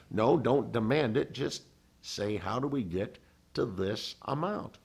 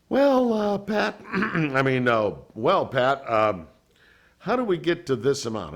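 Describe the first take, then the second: First: Put-on a light Tennessee accent; imitating the Tennessee attorney's calm advice; Tennessee drawl. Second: Much higher, louder, halting mock nerves; nervous. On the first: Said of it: "talks like this". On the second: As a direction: stammer it out like a nervous asker. Nervously asking for the money.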